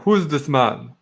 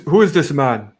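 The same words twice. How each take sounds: First: It is said with a stronger Transylvanian-style accent. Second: It is said with only a mild accent. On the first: "He had more of a like, Transylvanian accent" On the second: "I forget how to do his voice"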